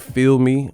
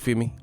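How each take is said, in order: First: The L sound in 'feel' is pronounced. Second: The L sound in 'feel' is dropped. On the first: "You don't have to say feel me" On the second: "take the L off. It'd be like feel me. You gotta say it like that"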